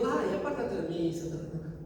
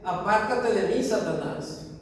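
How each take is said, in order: First: It is said in a soft, meek way. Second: It is said as a strong, angry rebuke.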